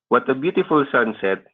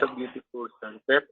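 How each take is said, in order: First: It is said with emphasis and excitement. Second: It is said plainly, without much emotion.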